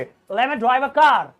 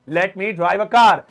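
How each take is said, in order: First: Let me is shortened, dropping the t sound. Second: Let me is said fully with a clear t. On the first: "लेकिन अब आप ऐसे बोलिए" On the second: "पहले हम ऐसे बोलते थे"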